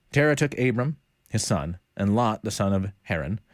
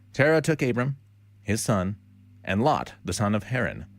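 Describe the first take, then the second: Both takes have the same delivery.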